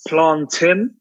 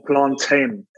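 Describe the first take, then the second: First: Plantain said slowly with a short TIN ending; plantain, second syllable rhyming with "tin". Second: Plantain said slowly with a long TAIN ending; plantain, second syllable rhyming with "rain". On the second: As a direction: say plantain as "plan-TAYN", drawn out. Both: Shown as a demonstration. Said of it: "is it pronounced".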